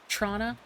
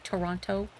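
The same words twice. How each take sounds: First: Some syllables are dropped, making it clipped. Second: Every syllable is pronounced in full. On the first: The speaker is from there. "people from there will say Toronto" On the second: The speaker is not from there. "versus saying Toronto"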